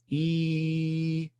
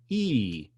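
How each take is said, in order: First: The pitch stays on one even note. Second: The pitch moves instead of staying level. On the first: The speaker calls it right. "Just go E, just like a singing thing, just like an even one" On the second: The speaker calls it wrong. "Don't go E or E"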